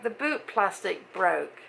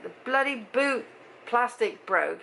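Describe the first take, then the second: First: Slowed right down, each word deliberate; slow, spelled-out repeat. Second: Said in the usual way. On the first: Shown as a demonstration. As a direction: repeat it slowly so he gets it.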